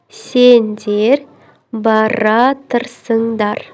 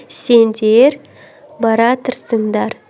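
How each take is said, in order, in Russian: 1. Глагол слит в одно сокращённое слово. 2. Глагол слит в одно сокращённое слово.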